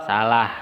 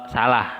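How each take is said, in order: Both takes have the same delivery.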